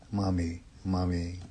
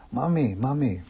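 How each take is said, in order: First: Low, soft sleepy murmur. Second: Understated cry for mother; mild crying out. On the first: Child falling asleep after mother's comfort, softly murmuring. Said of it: "softly murmuring". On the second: Little boy afraid of monsters in the room, mildly crying out. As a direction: call out for mother with a touch of fear. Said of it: "cries out". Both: A narrator's reading.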